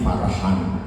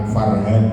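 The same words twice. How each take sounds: First: The h is a strong, breathy throat h. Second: The h is a plain, light h. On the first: The speaker calls it right. "tapi Farhan" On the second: The speaker calls it wrong. "nama saya bukan Farhan"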